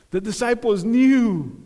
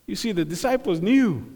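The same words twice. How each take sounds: First: Knew leaned on with a falling close; stress on knew. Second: Said in the usual way. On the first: Shown as a demonstration. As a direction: land firmly on the word knew.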